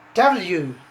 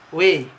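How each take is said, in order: First: The letter is named the English way. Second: The letter is named the Indonesian way. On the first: "but in English we can pronounce W" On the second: "in Indonesia we we pronounce we"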